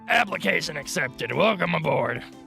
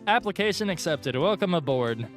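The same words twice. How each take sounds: First: It is said in a put-on Monika voice. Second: It is said in his normal voice.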